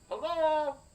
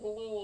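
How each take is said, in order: First: It is hollered loudly. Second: It is said quietly, not hollered.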